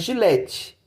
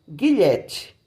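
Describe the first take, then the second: First: The word begins with a soft j sound. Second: The word begins with a hard g sound. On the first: The speaker calls it right. "vai ter som de J" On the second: The speaker calls it wrong. "e não guilhete"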